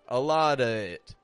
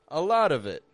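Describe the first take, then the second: First: 'Of' is a bare schwa before 'it'. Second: 'Of' keeps a v linking into 'it'. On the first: The speaker calls it wrong. "sounds very forced to me. It sounds kind of ugly" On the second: The speaker calls it right. "it's flowing"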